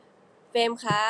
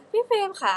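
First: เฟรมคะ said slow, back at her normal pitch; lower voice. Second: Put-on much higher and cute for an older sibling, พี่เฟรมค่ะ; sweet, high call of พี่เฟรมค่ะ. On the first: Showing fans the lower voice for เฟรมคะ. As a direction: drop the cute lift for a plain name, เฟรมคะ. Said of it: "ก็จะต่ำลงมา". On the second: Showing fans how she says พี่เฟรมค่ะ, high and cute. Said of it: "สมมติว่าชื่อว่าพี่เฟรมอย่างเงี้ย". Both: Shown as a demonstration.

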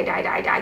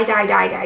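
First: Softer whispered die die die; hushed overwhelmed whisper. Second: Said in the usual way. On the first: Real, not acted. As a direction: trail off into a whisper. Repeating die, then whispering.

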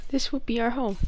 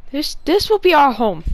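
First: Said in the usual way. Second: Laut und feierlich verkündet: "this will be our home"; grand declaration. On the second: Acted. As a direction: proudly proclaim it. Declares new home loudly.

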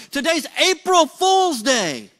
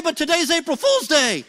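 First: "April Fool's Day" loud, slow and stressed; emphasized. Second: Mock panic, blurting out the reveal. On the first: Retold or imitated. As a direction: lean hard on each word of "April Fool's Day". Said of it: "he emphasizes it this time". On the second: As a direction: panicky rushed punchline. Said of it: "gets panicky".

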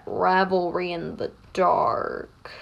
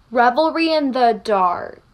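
First: Low, slow, softer brooding voice; Tokoyami. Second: Brooding line in a too-light voice; half-hearted dark, brooding act; unconvincing Tokoyami. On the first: Mina retries a gloomy classmate's catchphrase, low and brooding. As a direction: drag it out dark and low. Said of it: "It's not giving Tokoyami". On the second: Mina tries out a classmate's catchphrase, not yet convincing. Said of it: "it's giving Mina. It's not giving Tokoyami". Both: Pretend.

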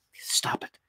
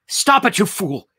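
First: Hushed, voiceless self-command; urgent whisper. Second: High, loud self-rebuke; shouted at himself. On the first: Saul fighting the vision, urgent whisper to himself. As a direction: whisper it sharply to yourself. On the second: Saul fighting the vision, shouting at himself. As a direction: burst out, scolding yourself. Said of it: "Saul shouted at himself". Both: A narrator's reading.

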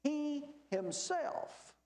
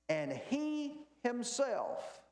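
First: "He himself" slow, higher, HE leaned on; stress on HE. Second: Slow, stressed "he himself", a pause after; slow emphasis. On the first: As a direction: stretch out "He himself", weight on he. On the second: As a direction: draw out "And he himself" and stop. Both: Shown as a demonstration. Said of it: "pause there for just a second".

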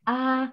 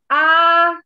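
First: The same "A" in a lower register; demonstrating the low voice. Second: A high "A", loud and high; demonstrating the high voice. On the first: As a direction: drop to the low voice. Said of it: "Terus suara rendahnya". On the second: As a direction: reach for the top of the range. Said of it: "Misalnya gini". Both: Shown as a demonstration.

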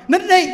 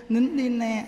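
First: Loud, high order to hush; angry scolding. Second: Put-on coaxing a child to stop crying; soothing hush. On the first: Acted. Fed-up carer to crying child, angry scolding. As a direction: yell at the child to stop crying. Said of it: "mà quý vị sân si lên á". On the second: Carer to crying grandchild, soothing coaxing. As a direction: hush the child gently, in an even lilt. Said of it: "mình dỗ nó".

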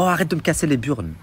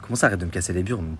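First: Snapped, pitched up, mock rude; rude brush-off. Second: Shocked echo. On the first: The agent rudely cutting off her tenant, mock annoyed. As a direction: imitate her telling him off, a bit higher. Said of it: "Elle me dit, oh". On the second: Retold or imitated. Tenant stunned by the agent's insult, repeating it. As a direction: repeat it back in disbelief. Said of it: "Moi, choqué".

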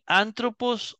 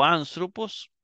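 First: ANTROPOS with a plain Spanish t; t pronunciation. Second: ANTHROPOS with th in place of t; th pronunciation. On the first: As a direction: say "antropos" with a hard t after the n. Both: Shown as a demonstration. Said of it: "antropos o anthropos".

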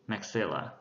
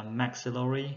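First: "Maxilla" stressed on the second syllable. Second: "maxillary" stressed on the first syllable. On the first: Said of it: "trọng âm rơi vào âm thứ hai". ("Maxilla" nhấn âm thứ hai) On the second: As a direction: hit MAX at the start of "maxillary". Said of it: "tịnh từ thì rơi vào âm thứ nhất". ("maxillary" nhấn âm thứ nhất) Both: Shown as a demonstration.

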